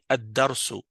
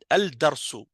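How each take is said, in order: First: The l merges into a doubled d sound. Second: The l of the article is clearly pronounced. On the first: The speaker calls it right. "c'est comme si on a enlevé le lam" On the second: The speaker calls it wrong. "Ça, c'est incorrect"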